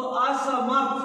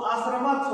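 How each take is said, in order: First: असमर्थ with the r sound just before थ, as a-sa-mar-tha; correct pronunciation. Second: असमर्थ with the r moved before म, like a-sar-ma-tha; wrong pronunciation. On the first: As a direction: say असमर्थ slowly, the r going straight into थ. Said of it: "थ के ऊपर लगा हुआ है". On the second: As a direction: say असमर्थ as a-sar-ma-tha, r placed too early. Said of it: "यदि हमने म के ऊपर लगा दिया". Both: Shown as a demonstration.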